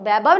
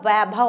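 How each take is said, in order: First: The word begins with a b sound. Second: The word begins with a v sound. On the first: The speaker calls it wrong. "व कोई ब बोल देते, तो क्या हो जाता है वैभव। तो वैभव नहीं होता" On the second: The speaker calls it right. "वैभव होता है"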